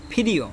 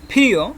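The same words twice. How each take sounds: First: Said in the usual way. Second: ফিরিও with a strong puff on the first consonant; thick pronunciation. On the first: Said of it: "এটা normal উচ্চারণ হবে". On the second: Shown as a demonstration. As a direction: demonstrate ফিরিও with a thick, aspirated "ph". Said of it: "উচ্চারণটা একটু মোটা করে হবে".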